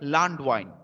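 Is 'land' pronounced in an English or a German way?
German. Land is said with a German pronunciation. The speaker calls it right. "If German speaks, they will say"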